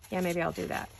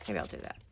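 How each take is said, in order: First: Said in the usual way. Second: Quiet self-talk, lower and softer; muttering to herself. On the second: Real, not acted. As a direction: lower and much softer, under her breath. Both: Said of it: "I'm talking to myself".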